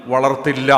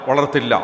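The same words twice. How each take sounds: The two takes are said the same way.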